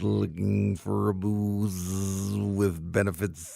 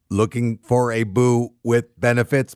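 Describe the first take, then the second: First: It is said in an imitation housefly voice. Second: It is said in an imitation robot voice. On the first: "My next one's a fly. Like a house fly"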